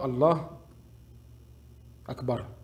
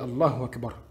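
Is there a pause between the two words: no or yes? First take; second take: yes; no. First: There is a gap between the two words. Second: The two words run together without a gap. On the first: The speaker calls it wrong. "ne pas laisser un espace de temps entre Allah et Akbar. On ne dit pas" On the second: The speaker calls it right. "On dit Allahu Akbar. Normal"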